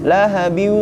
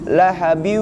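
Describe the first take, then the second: First: The n merges nasally into a following w. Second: The same.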